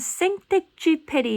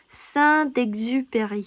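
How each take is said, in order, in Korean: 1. 이 이름은 한국식 음절로 읽습니다. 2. 이 이름은 프랑스식 발음으로 읽습니다. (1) "여러분 생텍쥐페리 이렇게 알고 있" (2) "Saint-Exupéry 이렇게 읽습니다"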